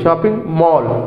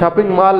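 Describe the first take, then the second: First: The vowel in mall is a short o. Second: The vowel in mall is an aa. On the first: The speaker calls it right. "Short हो ओ" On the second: The speaker calls it wrong. "Shopping मॉल नहीं है"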